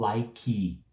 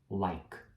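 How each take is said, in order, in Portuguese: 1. Um som de vogal extra vem depois do k final. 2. A palavra para no som final do k. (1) "então não falo like" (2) "esse E aí, ele é mudo"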